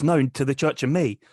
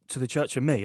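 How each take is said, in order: First: "No, to the Church of Me" said firmly, falling at the end; insistent correction. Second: "To the Church of Me?" echoed back in a plain, even voice; puzzled echo. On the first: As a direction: correct the listener, leaning on "No" and "Me". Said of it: "He goes". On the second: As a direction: query "To the Church of Me?" without raising the voice. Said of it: "I went". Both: Retold or imitated.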